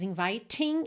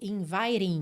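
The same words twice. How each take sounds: First: The middle T is a crisp T. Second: The middle T is a quick flap. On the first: The speaker calls it wrong. "não temos inviting" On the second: The speaker calls it right. "ele reduziu o T para rararã... e sim inviting"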